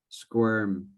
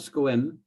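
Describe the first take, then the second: First: The word is said with a strong R sound. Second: The word is said with almost no R sound. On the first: The speaker calls it right. "need more er, more R, more R" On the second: The speaker calls it wrong. "Not squim"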